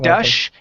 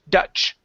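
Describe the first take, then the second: First: The word ends in a soft sh sound. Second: The word ends in a sharp ch sound. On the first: The speaker calls it wrong. "you're actually pronouncing an S H" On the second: The speaker calls it right. "it's ch, ch"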